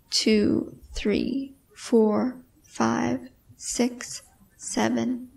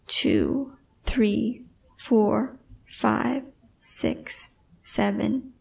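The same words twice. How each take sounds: The two takes are said the same way.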